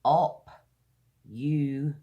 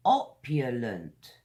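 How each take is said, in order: First: "Op-u-lent" in three isolated, stretched syllables with pauses; louder teacherly "Op ... u ... lent". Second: Said in the usual way. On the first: Shown as a demonstration. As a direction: sound out "Op-u-lent" piece by piece, very slowly. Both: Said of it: "Three syllables".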